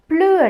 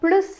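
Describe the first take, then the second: First: The final s sound is left silent. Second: The final s sound is pronounced. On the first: It means no longer. "இறுதியில் வார எஸ்ஸை வந்து நாங்கள் உச்சரிக்காமல் ப்ளூ என்று சொன்னோம்" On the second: It means more. "இறுதியில் வார எஸ்ஸையும் சேர்த்து ப்ளஸ் என்று சொல்லுவோம்"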